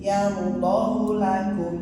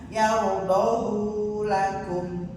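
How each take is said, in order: First: The vowel after h is kept short. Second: The vowel after h is drawn out long. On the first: The speaker calls it right. "tidak dibaca panjang tetapi pen pendek" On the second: The speaker calls it wrong. "hati-hati jangan kejebak membacanya dengan"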